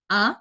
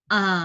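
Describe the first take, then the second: First: The pitch rises quickly and straight up. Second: The pitch dips down first, then rises again. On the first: "Kalau yang nada dua tadi A, A agak cepat" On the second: "Kalau nada tiga"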